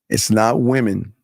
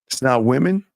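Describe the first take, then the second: First: It is said slowly. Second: It is said fast.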